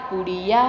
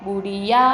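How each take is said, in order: Both takes have the same delivery.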